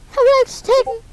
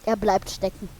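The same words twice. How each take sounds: First: Excited repeat to buddy. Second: Said in the usual way. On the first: Real, not acted. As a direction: exclaim it in disbelief.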